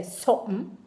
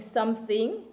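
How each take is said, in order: First: "something" said as sopm, no th; "something" squeezed to sumn; patois something. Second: Said in the usual way. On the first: Shown as a demonstration. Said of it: "you just say something". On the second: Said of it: "instead of saying something".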